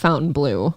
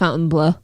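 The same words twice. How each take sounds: First: It is said with an American pronunciation. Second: It is said with a French pronunciation. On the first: This is the normal way to say it. The speaker calls it right. "no, it's" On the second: The speaker finds it pretentious. The speaker calls it wrong. "find it so douchey when Jacob says"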